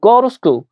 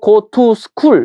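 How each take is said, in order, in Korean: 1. 단어들이 부드럽게 이어져 하나처럼 흘러갑니다. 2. 각 단어를 따로, 이어지지 않게 발음합니다. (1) "이렇게 읽어 버리니까 '오 얘가 버터를 발랐구나. 뭔가 어 느끼한 발음이다.'" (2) "단독적으로 go to school 이렇게 읽지 않고"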